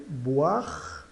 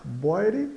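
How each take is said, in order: First: "boire" as "bu-ar", final E silent. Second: "boire" as "bói-ri", every letter voiced; read as spelled. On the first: Teacher models the French word, "boire" as "bu-ar". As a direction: turn OI into "wa" in "boire". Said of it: "soa o A". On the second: Teacher reads out the spelling, "boire" as "bói-ri". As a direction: sound out "boire" with O-I and final E. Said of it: "E o E final". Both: Shown as a demonstration.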